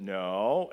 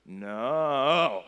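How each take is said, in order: First: A lower, firm fatherly "No."; dad warning his son not to throw the cup, a firm "No.". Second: Put-on louder, defiant little-kid "No."; defiant toddler. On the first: Retold or imitated. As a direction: say "No." flat and final to the child. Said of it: "and I said". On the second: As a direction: shout "No." back like a stubborn toddler. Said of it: "And he says".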